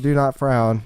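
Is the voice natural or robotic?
robotic. It is said in a mechanical robot voice.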